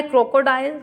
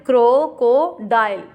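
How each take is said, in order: First: Said in the usual way. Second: crocodile slowly in three beats, crow - को - dial; slow teacher's count-out of crocodile, each syllable set apart; split into syllables. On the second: Shown as a demonstration. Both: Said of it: "इसमें three syllables आ गए".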